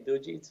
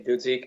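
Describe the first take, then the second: First: The name is said with Polish pronunciation. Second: The name is said with English pronunciation. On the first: "Polish you would say Dujic" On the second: "in English I just say Dudzik"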